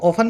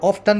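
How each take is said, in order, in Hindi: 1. t की आवाज़ चुप रहती है। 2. t की आवाज़ बोली जाती है। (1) "ऑफन बोला जाता है ब्रिटिश इंग्लिश में" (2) "ऑफ्टन बोला जाता है अंग्रेजों की, अमेरिकन की इंग्लिश में"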